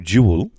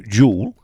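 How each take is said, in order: First: The word stretches to one and a bit syllables. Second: The word is squeezed into one syllable. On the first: It is the correct pronunciation. The speaker calls it right. "which is the correct pronunciation, it's like one and a bit" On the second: It sounds common. The speaker calls it wrong. "it's one"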